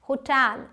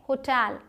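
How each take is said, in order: No difference in how they are said.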